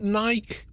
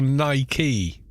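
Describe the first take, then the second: First: "Nike" rhyming with bike; one-syllable Nike. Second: "Nike" as NY-kee; two-syllable Nike. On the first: Asking Americans which is right, "Nike" as nyke. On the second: Asking Americans which is right, "Nike" as NY-kee. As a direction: say "Nike" with an ee ending. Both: Shown as a demonstration. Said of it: "Is it, is it Nike or Nike".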